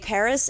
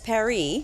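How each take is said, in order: First: Paris is said with an English pronunciation. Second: Paris is said with a French pronunciation.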